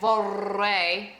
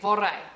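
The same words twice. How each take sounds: First: The rolled R is held far too long. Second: The rolled R is held only briefly. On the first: The speaker calls it wrong. "hold it for too long because then it sounds ridiculous" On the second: The speaker calls it right. "no, we say vorrei"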